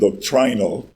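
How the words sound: It is said with a British pronunciation. "please forgive the British uh, pronunciation"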